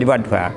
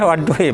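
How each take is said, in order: First: The word ends with an 'a' vowel. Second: The word ends with an 'i' vowel. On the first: This is the reading in the standard text. "tapi ini fathah. Ya, jadi wadduha" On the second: This is an alternative way of reading the word. "ada yang baca memang wadduhi"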